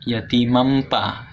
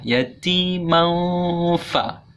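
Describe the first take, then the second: First: The nasal closes into an m and p sound. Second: The nasal glides into a clear f sound. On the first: The speaker calls it wrong. "tidak dibaca yatimam pa ya kalau yatimam pa salah" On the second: The speaker calls it right. "harus ada yatiman fa"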